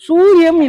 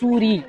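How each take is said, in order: First: The name is said with an extra final syllable. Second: The name is said short, with two syllables. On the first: The speaker calls it wrong. "சூரியம் இல்ல" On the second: The speaker calls it right.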